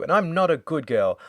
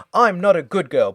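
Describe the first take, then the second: First: Indignant denial. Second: The repeat comes out higher and louder, insisting; louder indignant repeat. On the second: Chloe insisting to Jill she is not good, louder mock outrage. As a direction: push harder on the repeat, hammed-up. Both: Retold or imitated. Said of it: "she kind of arcs up again".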